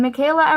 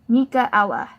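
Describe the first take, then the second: First: The name ends with a 'kayla' sound. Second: The name ends with a separate 'ella' sound. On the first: The speaker calls it wrong. "that's not how you say it" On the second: The speaker calls it right. "You say it like this"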